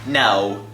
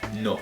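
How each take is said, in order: First: It is said with an English accent. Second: It is said with a Spanish accent. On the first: The speaker calls it wrong. "like an Englishman or an American" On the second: The speaker calls it right. "You say it no"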